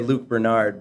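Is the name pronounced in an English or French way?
English. The name is said with English pronunciation. "English would say Luc Bernard"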